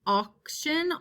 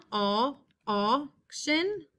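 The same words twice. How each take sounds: First: Said in the usual way. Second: Aw, auction stretched very slowly; slow sounded-out auction. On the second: Shown as a demonstration. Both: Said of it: "We have the word auction".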